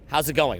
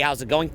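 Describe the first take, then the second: First: The pitch falls at the end. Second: The pitch stays level at the end. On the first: "or down?"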